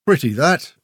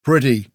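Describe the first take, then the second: First: Lightly voiced, appraising little man; little man's remark. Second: A brief, understated grunt. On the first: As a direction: remark on it as if sizing it up. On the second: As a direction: grunt it back, unimpressed. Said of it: "Grell grunted". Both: A narrator's reading.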